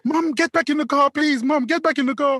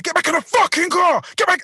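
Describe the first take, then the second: First: High, urgent mimicked plea; higher put-on imploring voice; daughter pleading. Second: High-pitched angry shout; forceful, irate command; acted furious order. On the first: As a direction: imitate a daughter begging her mum. Voices daughter pleading with her mum. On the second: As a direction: re-enact yelling someone back into a car. Retold shouting at the old woman.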